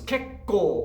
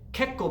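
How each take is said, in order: First: The word is said like a rooster crowing. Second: The word is said in a plain way.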